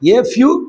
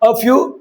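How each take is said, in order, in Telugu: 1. Article 'ay' లాగా వినిపిస్తుంది. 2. Article 'uh' లాగా వినిపిస్తుంది. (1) "మనం ఏ అంటాం" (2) "ఒరిజినల్ స్పీకర్సు ఏ అనరు, అ అంటారు"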